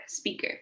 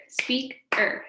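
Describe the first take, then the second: First: Said in the usual way. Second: "speaker" broken into two beats, speak - er; "speaker" slowly divided, speak, then er; split into syllables. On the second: Shown as a demonstration. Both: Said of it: "Let's clap our words".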